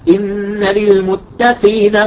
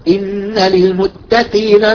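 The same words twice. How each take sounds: No difference in how they are said.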